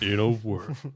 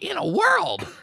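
First: A deep, dramatic movie trailer announcer voice. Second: A high, squeaky cartoon mouse voice. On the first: "you can just picture that in a world voice" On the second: "Mickey Mouse did trailers"

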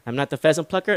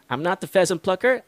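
First: It is spoken at an even quicker pace. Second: It is spoken at a fairly quick pace. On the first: "Tito's going to go a little bit faster for this last time" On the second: "Tito's going to go faster"

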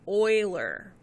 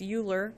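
First: The name is pronounced unlike the American way. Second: The name is pronounced the way Americans say it. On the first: The speaker calls it right. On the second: The speaker calls it wrong.

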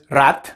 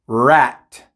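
First: The r is trilled with the tongue tip. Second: The r is smooth, tongue not touching. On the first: The speaker calls it wrong. "No es rat" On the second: The speaker calls it right. "es rat"

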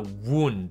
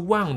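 First: Said with the pronunciation meaning injury. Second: Said with the pronunciation meaning coiled. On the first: It means an injury. "它变成了wound，它的意思是受伤" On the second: It is the past tense of wind. "它的发音又不是wound 了"

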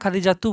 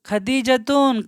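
First: The word ends in a vowel, no n. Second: The word ends with a final n sound. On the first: The speaker calls it right. "Khadija তু বলতে হবে" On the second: The speaker calls it wrong. "এখানে তুন বলা যাবে না"

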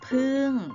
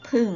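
First: The syllable is said with a falling tone. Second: The syllable is said with a low tone. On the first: "เสียงโทเราเติมไม้โทลงไป" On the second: "เสียงเอกล่ะผันได้ไหมผันได้นะคะเราก็เติมไม้เอก"

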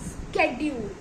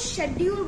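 First: The word begins with an sk sound. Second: The word begins with an sh sound. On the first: The speaker calls it right. "इसकी सही pronunciation है स्केड्यूल।" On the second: The speaker calls it wrong. "हम सब इसे शेड्यूल बोलते हैं"

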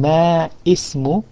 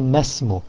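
First: The two words are separate, with the i sounded. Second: The words join into one, with the i dropped. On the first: The speaker calls it wrong. "Instead of saying ma ismu" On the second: The speaker calls it right. "you say masmu"

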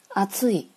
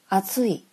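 First: The pitch rises then drops after the middle syllable. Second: The pitch rises and stays high to the end. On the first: It means hot to the touch or hot weather. "它们的声调都是二" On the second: It means thick. "声调是零"

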